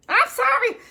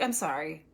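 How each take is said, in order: First: Very high, loud squeaked apology; apologetic patient. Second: Said in the usual way. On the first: Acted. Scolded patient pleading with the doctor, high mock wail. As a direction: imitate a patient wailing sorry.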